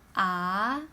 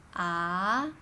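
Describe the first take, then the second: First: The pitch rises like a question. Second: The pitch rises like a question.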